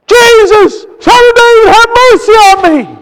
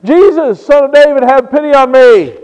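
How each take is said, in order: First: Blind man's desperate high shout; loud, high cry for mercy; crying out louder. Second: Blind man calling out for pity; raised voice, a moderate pleading call. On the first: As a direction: shout the plea at full voice. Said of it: "he cried out the louder". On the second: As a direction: call out to be heard. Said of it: "he is calling out". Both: Retold or imitated.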